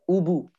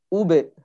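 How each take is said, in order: First: The echo after b sounds like a full u. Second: The echo after b is short and neutral. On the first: The speaker calls it wrong. "seolah-olah ba ini berharokat dhammah" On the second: The speaker calls it right. "kalau dia dhammah ya ube, bukan ubu"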